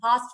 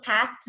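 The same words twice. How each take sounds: First: "past" with a long open ah; British-style past. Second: "past" with the flat a of "cat"; American-style past. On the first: Teacher showing how we say it, British-style ah in "past". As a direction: say "past" like "pahst". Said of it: "हम past बोलते हैं". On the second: Teacher showing the past we don't say, American-style æ in "past". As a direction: say "past" with a short front æ vowel. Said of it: "हम लोग past नहीं बोलते". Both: Shown as a demonstration.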